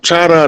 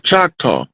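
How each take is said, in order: First: The name is two syllables ending in 'ah'. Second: The name has a 'k' and ends in 'aw'. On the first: This is the original, French-style pronunciation. The speaker calls it right. "like it's supposed to be pronounced" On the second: This is the English pronunciation of the name. The speaker calls it wrong. "Choctaw is a mispronunciation. It's an English pronunciation"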